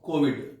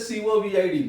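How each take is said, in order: First: It is said as a single word. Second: Each letter is said separately. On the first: The speaker calls it right. "It is pronounced as a word" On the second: The speaker calls it wrong. "We don't say COVID, no"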